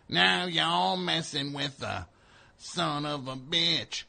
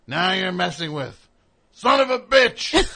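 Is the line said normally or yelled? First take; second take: normally; yelled. First: It is said in a normal voice. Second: It is yelled loudly, like scolding someone.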